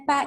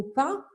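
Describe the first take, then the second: First: "pain" as two syllables, pa-INE; "pain" split into pa-ine, pitched higher; Spanish-style pronunciation. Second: Said in the usual way. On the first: Shown as a demonstration. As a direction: read "pain" letter by letter the Spanish way, sounding the final n. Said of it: "en espagnol, on dirait". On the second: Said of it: "si vous prenez un mot qui s'écrit".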